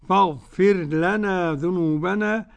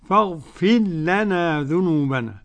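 Both takes have the same delivery.

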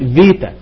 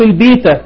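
First: The word begins with a v sound. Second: The word begins with a b sound. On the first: This is the modern Greek pronunciation. "يتنطق في الجديدة فيتا" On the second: This is the ancient Greek pronunciation. "حرف البيتا في اللغة اليونانية القديمة"

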